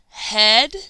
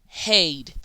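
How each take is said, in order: First: The vowel is a short e sound. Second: The vowel is a long ay sound. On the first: The speaker calls it right. "Is it ed, It is sound two" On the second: The speaker calls it wrong. "Or sound three, aid"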